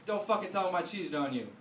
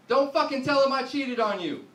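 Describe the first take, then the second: First: Said in the usual way. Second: Loud, high hissed plea, pitched up; wife's frantic plea. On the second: Retold or imitated. Wife pleading with husband mid-call, loud frantic plea. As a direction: yell it in a panic, half under breath. Wife begging him not to tell dad.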